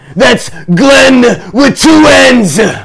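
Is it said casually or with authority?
with authority. It is said forcefully, with authority.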